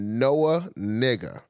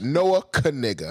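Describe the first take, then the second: First: The surname starts without a K sound. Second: The surname starts with a K sound. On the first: The speaker calls it wrong. "That's wrong already" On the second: The speaker calls it right. "they pronounce the K"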